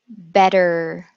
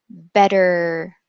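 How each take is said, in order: The two takes are said the same way.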